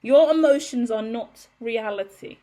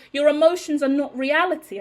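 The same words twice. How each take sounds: First: "Your emotions are not reality" said slowly, word by word; repeating the line deliberately; slow emphatic repeat. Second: EMOTIONS stressed, raised and loud; mock the dismissive line; quoting what she was told, with scorn; quoting a dismissal. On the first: Retold or imitated. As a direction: spell it out slowly. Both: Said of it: "I've been told".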